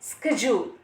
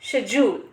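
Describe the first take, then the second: First: It is said with an American pronunciation. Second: It is said with a British pronunciation. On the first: "अगर हम American की बात करें तो correct pronunciation है" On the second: "अगर हम ब्रिटिश की बात करें तो करेक्ट प्रोनाउंसिएशन है"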